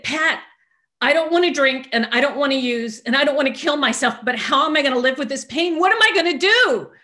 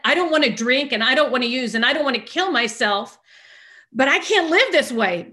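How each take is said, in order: First: High, loud desperate outburst; retold screaming. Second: High, loud, insistent repeat; exasperated inner protest. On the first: Venting to her sponsor about pain, screaming. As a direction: wail it at full voice, pitch climbing to the last question. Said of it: "I'm screaming at the top of my lungs". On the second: Retold or imitated. Silently fuming at her calm sponsor, exasperated. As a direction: hammer each complaint in disbelief. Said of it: "And I'm thinking, "Did she just hear what I said?".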